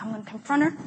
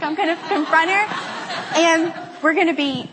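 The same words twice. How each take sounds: First: Understated resolve. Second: Higher-pitched mock determination with laughter; hyped-up resolve. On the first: Retold or imitated. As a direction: say it quickly under the breath. Nervous resolve, first retelling. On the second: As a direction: pump yourself up for a confrontation, half laughing. Hyped-up resolve, second retelling.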